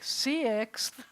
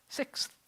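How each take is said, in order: First: "sixth" stretched into two syllables, see-iks; "sixth" with an extra drawn-out vowel; two-syllable pronunciation. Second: "sixth" as one syllable, six, stop, th; "sixth" with a tiny halt before an unvoiced th; stop mid-word. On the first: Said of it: "Unless you're saying, like". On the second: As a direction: break "sixth" before the final th. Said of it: "You have to stop in the middle of the word". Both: Shown as a demonstration.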